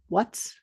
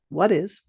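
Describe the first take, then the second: First: It is said as one short contracted word. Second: It is said as two separate full words.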